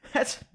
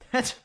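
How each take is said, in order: Both takes have the same delivery.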